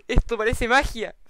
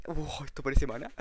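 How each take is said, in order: First: "magia" said higher and louder in awe; correcting himself excitedly. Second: Said in the usual way. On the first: Real, not acted. Viewers shown the magic table, awed and louder. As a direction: lift "magia" up in wonder.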